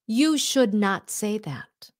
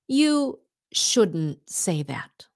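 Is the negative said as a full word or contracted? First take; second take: full; contracted. First: The words should not are said in full. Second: Should not is contracted into one word.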